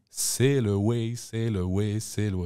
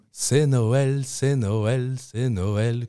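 First: C'est le way sung slowly, like sail away; the true English words, gently sung; actual lyric. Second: C'est Noël sung high and loud as the French ear hears it; mock French mishearing of the chorus; misheard lyric. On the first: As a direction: sing c'est le way slowly as the real line. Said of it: "la chanteuse dit". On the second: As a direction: sing c'est Noël, the mondegreen. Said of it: "notre accent français comprend c'est Noël". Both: Shown as a demonstration.

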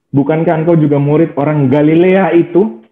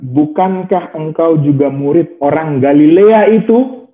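First: Said in the usual way. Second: Slow, drawn-out questioning. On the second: Shown as a demonstration. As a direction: stretch the question slowly, rising at the end. (pertanyaan lambat dan panjang)

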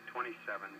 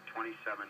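Both takes have the same delivery.

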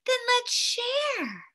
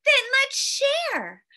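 First: Lightly voiced little girl, high and slow; a hint of a child, pitched up and drawn out. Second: Lightly voiced little boy, higher; a hint of an eager child, pitched up. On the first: Little girl offering to share with the snowman, lightly childlike. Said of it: "a little girl said". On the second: Little boy offering to share with the snowman, lightly childlike. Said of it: "a little boy said". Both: A narrator's reading.

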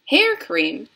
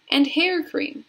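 First: Louder, rising HAIR CREAM in disbelief; cried question. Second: Said in the usual way. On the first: A narrator's reading. Mike Teavee questions the door's list, surprised cry. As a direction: query the odd item. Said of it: "cried Mister Mike Teavee".

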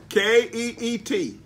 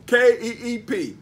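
First: K E E T spelled out slowly, letter by letter; spelling it out wrong. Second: K E E P spelled out firmly, letter by letter; spelling it out right. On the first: Preacher spelling the word to the congregation, slowly. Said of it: "Did I say P?". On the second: Preacher correcting his spelling for the church, firmly. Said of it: "I meant P". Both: Shown as a demonstration.

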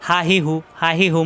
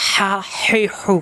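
First: হা হি হু with a light open h; easy, unpressed h in হা হি হু; no throat pressure. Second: হা হি হু with strong friction squeezed in the throat; slow, constricted throaty h on each of হা হি হু; pressed in throat. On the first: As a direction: say হা হি হু briskly from an open mouth. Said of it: "এখানে কিন্তু কোনো চাপ নেই". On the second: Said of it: "কণ্ঠনালীতে চাপ দিতে হয়". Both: Shown as a demonstration.

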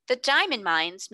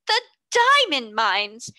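First: Said in the usual way. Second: Louder, slow gasping shock; breathless disbelief at the news; gasped out. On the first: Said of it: "Mister Carmichael repeated". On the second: A narrator's reading. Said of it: "Miss Minchin gasped out".

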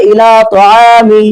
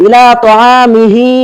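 First: Slow তাআমি with the হি ending dropped; stopping on the word. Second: Slow ইলা তাআমিহি with the final হি sounded; full reading. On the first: Teacher showing how the word sounds when pausing, slowly. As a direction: cut তাআমি at মি and stretch it slowly. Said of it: "আমি যখন ওয়াকফ করে বলছি". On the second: Teacher reading the full word before the pause, slowly. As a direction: say তাআমিহি slowly, keeping the ending হি. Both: Shown as a demonstration.

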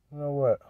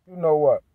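First: Much softer, trailing off; muttered repeat fading almost to nothing; almost under his breath. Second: Said in the usual way. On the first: Real, not acted. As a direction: say it to yourself, barely audible. Repeats the phrase, second time dropping away.

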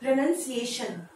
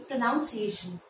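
First: "प्रोनाउंसिएशन" with NUN, not noun; correct pronunciation. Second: "प्रोनाउंसिएशन" with a NOUN second syllable; mispronunciation to avoid. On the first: Teacher telling learners the new way, correctly pronounced with "nun". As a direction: say "प्रोनाउंसिएशन" as pruh-nun-see-AY-shun. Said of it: "अब से इसको आप pronounce करेंगे". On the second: Teacher showing what not to say, mispronounced with "noun". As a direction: say "प्रोनाउंसिएशन" wrongly as pro-NOUN-see-ay-shun. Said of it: "ना कि". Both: Shown as a demonstration.

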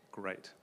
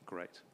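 Both takes have the same delivery.

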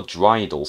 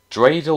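First: Dreidel with a long I, DRY-dul; alternative pronunciation. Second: Dreidel with a long A, DRAY-dul; first pronunciation option. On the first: Player offering the other option, dreidel said as DRY-dul. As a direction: say dreidel to rhyme with bridle. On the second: Player unsure how it is pronounced, Dreidel said as DRAY-dul. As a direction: say Dreidel to rhyme with cradle. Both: Shown as a demonstration. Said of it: "is it pronounced dreidel?".

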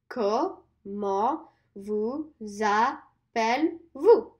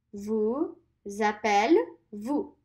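First: "Comment vous appelez-vous" very slow, falling end; slow repeat-after-me; slow full phrase. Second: "vous appelez-vous" stretched very slowly; slow teacher modelling; slow model. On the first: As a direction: say the whole question slowly. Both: Shown as a demonstration. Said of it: "Let's do that one more time".

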